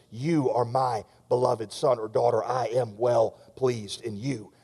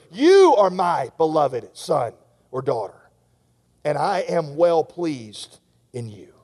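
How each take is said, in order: First: Soft fatherly reassurance to the guilty; the Father's voice. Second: Slow, steady voice of the Father; a lightly voiced fatherly declaration; God's blessing. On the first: Retold or imitated. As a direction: speak it gently as the Father would. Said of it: "hearing the voice of the Father speaking". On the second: God's blessing spoken over listener.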